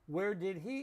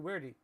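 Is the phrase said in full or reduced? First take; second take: full; reduced. First: Each word is said fully and separately. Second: The words are squeezed together and reduced.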